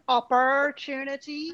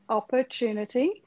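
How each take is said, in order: First: It is said in an American accent. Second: It is said in a non-American accent. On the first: "If it was an American accent"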